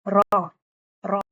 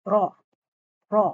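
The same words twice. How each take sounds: Both takes have the same delivery.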